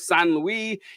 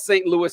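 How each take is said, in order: First: It is said with a French pronunciation. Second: It is said with an American English pronunciation.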